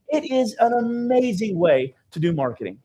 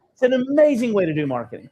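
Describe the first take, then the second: First: Said in the usual way. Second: Amazing lifted and punched, rest falling; stress on amazing. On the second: Shown as a demonstration. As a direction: lean hard into amazing.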